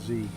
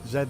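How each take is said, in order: First: The letter is said as zee. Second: The letter is said as zed. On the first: This is how Americans name the letter. The speaker calls it wrong. "not Z" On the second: This is how Australians name the letter. The speaker calls it right.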